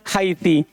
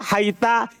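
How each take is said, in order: First: The word ends with an i vowel. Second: The word ends with an a vowel. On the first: "kadang kasro" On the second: "kadang fathah"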